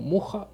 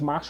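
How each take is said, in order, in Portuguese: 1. O nome é pronunciado como Murra. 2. O nome é pronunciado como Masha.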